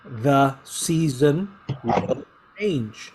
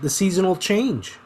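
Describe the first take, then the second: First: Each word is said separately and fully. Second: The middle two words blend into one word. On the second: "but we pronounce it"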